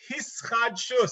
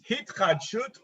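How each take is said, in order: First: Ashkenazi pronunciation, with s sounds. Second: Modern Israeli pronunciation, with t sounds. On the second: "So it's hitchadshut"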